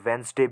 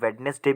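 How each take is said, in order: First: The middle d sound is dropped entirely. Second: The middle d sound is pronounced clearly. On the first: "वेंसडे भी कह सकते हो" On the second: "इसे आप वेडनेसडे भी कह सकते हो"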